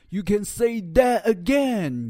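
It is said with forceful, marked emphasis. The speaker calls it wrong. "你不能够说"

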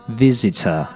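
The middle t is a clear t sound. "英音会读Visitor 那个T 还是发的T 的音"

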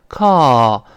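The vowel is an open, relaxed sigh-like sound. "美音中这个o 的声音呢，我说过发成叹气音啊，特别舒服的call"

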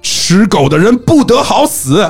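It is said as a forceful exclamation.

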